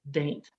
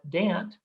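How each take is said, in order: First: It is one syllable with the vowel of 'ain't'. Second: It is one syllable with the vowel of 'ant'. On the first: "my personal favorite" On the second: "go with Chaucer and call it Dant"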